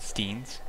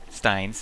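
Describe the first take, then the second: First: The vowel is said like 'ee'. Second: The vowel is said like 'eye'. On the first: The speaker calls it wrong. "I always used to pronounce it steens because it looks like steens" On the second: The speaker calls it right. "that's how you pronounce it"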